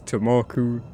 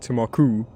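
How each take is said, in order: First: The stress is on the second syllable. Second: The stress is not on the second syllable. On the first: The speaker calls it right. "It's Tamaku" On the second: The speaker calls it wrong. "No one goes Temaku or Tamaku"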